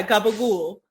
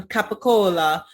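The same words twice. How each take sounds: First: Gabagool, with hard g and a long "ool" ending; imitated deli guy's clipped-ending gabagool; New York Italian pronunciation. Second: Capicola said in full, "cap-i-CO-la"; imitating an Italian ordering capicola; Italian customer's pronunciation. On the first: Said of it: "And the guy's like". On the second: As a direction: pronounce every syllable of capicola, ending on an open "la". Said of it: "and the Italian's like".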